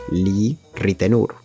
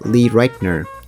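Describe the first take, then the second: First: The name is said with a Spanish-style pronunciation. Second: The name is said with an American pronunciation. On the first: This is how people here say it. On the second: This is how the name is said abroad.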